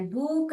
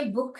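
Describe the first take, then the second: First: बूक with a stretched oo; long vowel. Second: बुक with a quick short oo; short vowel. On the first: Teacher showing what not to say, long oo in बूक. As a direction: draw out the oo in बूक. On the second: Teacher correcting students' reading, short oo in बुक. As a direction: keep the oo in बुक brief. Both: Shown as a demonstration. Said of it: "बूक नहीं है".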